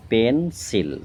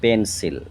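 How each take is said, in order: First: পেন্সিল separated into পেন, সিল; split in two parts. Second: Said in the usual way. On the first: Shown as a demonstration. Teacher dividing the word for pupils, পেন্সিল as পেন-সিল. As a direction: break পেন্সিল after পেন. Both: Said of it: "দুটো ভাগ".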